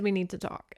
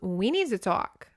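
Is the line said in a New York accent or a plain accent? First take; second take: plain; New York. First: It is said with a plain accent. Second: It is said with a New York accent.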